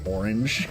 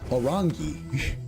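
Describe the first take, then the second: First: The word is pronounced in the standard way. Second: The word is pronounced in a distorted way. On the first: "which is like orange" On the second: "I mispronounced the word"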